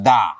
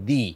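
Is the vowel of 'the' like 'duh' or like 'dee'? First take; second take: duh; dee. First: The vowel is a short, neutral 'uh' sound. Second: The vowel is a long, high 'ee' sound. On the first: The next word starts with a consonant. "কনসোনেন্টের আগে T H E আসলে আমরা উচ্চারণ করব দা" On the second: The next word starts with a vowel. "ভাওয়েলের আগে যদি T H E আসে, সেক্ষেত্রে আমরা উচ্চারণ করব দি"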